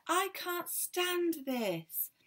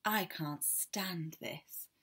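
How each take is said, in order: First: Much higher, very slow drawn-out complaint; Mister Bear at the end of his tether, high and slow; exasperated wail. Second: Slow, drawn-out groan of a complaint; Mister Bear fed up with the noise, slow and weary. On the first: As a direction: stretch it out in despair. Mister Bear kept awake again. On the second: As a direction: sigh it out, fed up. Tired bear kept awake. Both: Acted.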